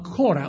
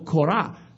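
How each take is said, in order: First: The name is pronounced the usual English way. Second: The name is pronounced the Hebrew way.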